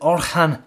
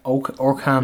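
First: The middle consonant is a soft H sound. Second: The middle consonant is a hard K sound. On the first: "Is it Orhan Fokic?" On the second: "There could be a bit of a K in there"

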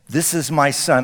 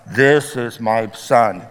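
First: It is said in a normal reading voice. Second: It is said in a booming God-like voice.

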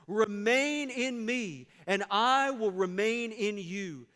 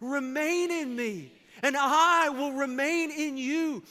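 First: It is read in a plain, ordinary way. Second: It is read forcefully, with strong conviction.

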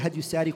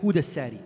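First: The first syllable is said with an 'a' vowel. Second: The first syllable is said with a 'u' vowel. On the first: "don't call it Hadyusari" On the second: "call it Hudasari"

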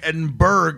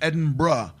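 First: The name ends with a hard 'burg' sound. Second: The name ends with a soft 'borough' sound. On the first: The speaker calls it wrong. "I'm calling it Edinburgh" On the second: The speaker calls it right. "And it's Edinburgh"

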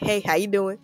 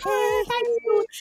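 First: It is spoken as to a grown adult. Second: It is spoken as to a small child.

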